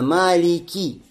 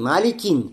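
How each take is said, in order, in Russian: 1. Слово заканчивается на гласную, без «н». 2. Слово заканчивается добавленным звуком «н». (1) "а Малики. Без танвина" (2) "Не Маликин"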